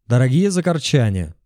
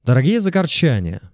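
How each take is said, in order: First: Calling out to the crowd; rally speech. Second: Raised rally call; shouted into megaphone. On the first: Addresses crowd via megaphone. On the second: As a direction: call out to the crowd. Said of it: "прокричал я в мегафон". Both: A narrator's reading.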